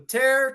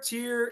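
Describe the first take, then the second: First: The vowel sounds like 'air'. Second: The vowel sounds like 'ear'.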